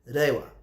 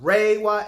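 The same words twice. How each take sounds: First: It starts with a D- or L-like sound. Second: It starts with an English-style R sound. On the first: The speaker calls it right. "it's Reiwa ... It has a D or L sound" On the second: The speaker calls it wrong. "Not Reiwa era that people are pronouncing"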